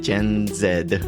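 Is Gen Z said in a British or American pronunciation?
British. Gen Z is said in a British pronunciation.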